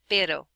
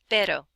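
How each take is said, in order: First: The r is a quick tap, like ladder. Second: The same.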